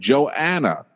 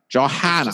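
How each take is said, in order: First: The name is said without an H sound. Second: The name is said with an H sound.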